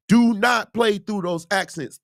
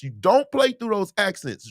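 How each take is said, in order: First: "Do not" hit hard, whole line slow; firm emphatic "Do not"; stress on not. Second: Said in the usual way. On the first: Shown as a demonstration. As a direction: spell out "Do not play through" slowly.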